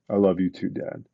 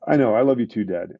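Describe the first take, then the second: First: Understated, grave imitation of a son; sobered retold child. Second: Breezy retold child. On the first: Son answers his hurt dad's plea, suddenly sobered. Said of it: "it was almost like he aged twenty years". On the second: Seven-year-old son to dad before handing back the phone, breezy. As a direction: imitate a kid hurrying off the phone. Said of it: "he goes to hand the phone back".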